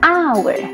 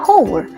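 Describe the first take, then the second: First: The word starts with a vowel, h silent. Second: The word starts with an audible h sound. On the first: This is how it is read in English. "Bahasa Inggris bacaannya hour" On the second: This is how it would be read in Indonesian. "Kalau di bahasa Indonesia kan dibaca hour"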